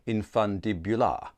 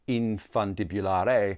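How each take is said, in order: First: The final E is silent. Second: The final E is pronounced. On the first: "perhaps it's a silent E, which would make it infundibular" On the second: "I want to put an accent on the E"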